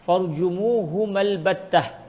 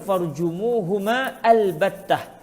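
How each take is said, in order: First: The alif is elided, linking the two words. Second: A glottal stop separates the two words. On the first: "hamzatul wasli" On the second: "hamzatul qat'i"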